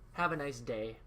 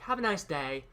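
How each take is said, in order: First: It is said in his usual non-British accent. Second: It is said with a British-sounding accent.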